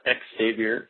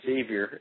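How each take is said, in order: First: The word begins with an eks sound. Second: The word begins with a plain z sound. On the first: The speaker calls it wrong. "It's not X-Xavier" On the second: The speaker calls it right. "it's pronounced Xavier"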